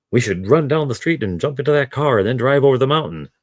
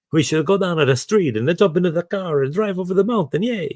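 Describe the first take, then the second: First: A slightly raised mock English accent read. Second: Much higher, hammed-up Italian accent. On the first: Reader starting a book dialogue line, in a light English accent. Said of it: "in an English accent". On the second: Reader correcting course for Machiavelli's dialogue, in a hammed-up high Italian accent. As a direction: redo the line as Machiavelli, with an over-the-top Italian lilt. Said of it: "see the word Machiavelli coming".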